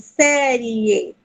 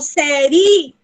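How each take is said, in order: First: The i is a short glide before e. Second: The i is a full, separate vowel. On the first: The speaker calls it right. "eu falo série. O e tá maior" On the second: The speaker calls it wrong. "Eu não falo série"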